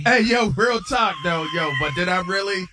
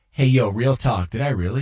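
First: Hammed-up bro slang. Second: Lightly voiced bro slang, a bit louder; mild mock "real talk"; mock Patty quote. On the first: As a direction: stretch out "Hey" like a swaggering friend. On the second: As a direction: quote a buddy with a hint of swagger. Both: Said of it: "Patty's response was".

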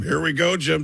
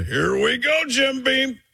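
First: Tony Romo impression. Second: Higher excited Romo punchline; Tony Romo impression. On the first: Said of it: "I've changed it from". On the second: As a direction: Here we go pitched up high.

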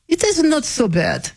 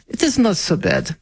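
First: High, hammed-up Russian accent on "it is not so bad". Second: Said in the usual way. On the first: Shown as a demonstration. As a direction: play a comic Russian saying it. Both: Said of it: "my Russian accent".

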